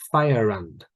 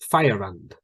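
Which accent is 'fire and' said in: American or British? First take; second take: British; British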